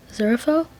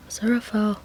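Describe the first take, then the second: First: Name asked with a rising tune; Aziraphale? with a rising end; questioning call. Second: Name said with a falling tune, softer; Aziraphale. falling and quieter; firmer call. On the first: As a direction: call his name like a question, pitch going up. Reader calls zoned-out Aziraphale. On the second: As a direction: say Aziraphale. flatly, dropping at the end. Reader calls his name again. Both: Acted.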